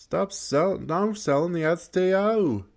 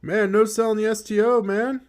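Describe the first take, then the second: First: High, disbelieving repeat; incredulous complaint. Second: High, loud amazed protest; incredulous outburst. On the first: Gamer repeating his complaint at the screen, still high and amazed. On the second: Gamer yelling at the opponent who shrugs off his move, in high disbelief. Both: Real, not acted.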